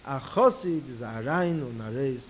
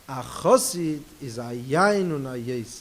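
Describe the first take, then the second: First: The r sounds are pronounced as r. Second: The r sounds are replaced by y sounds. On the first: The speaker calls it right. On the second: The speaker calls it wrong.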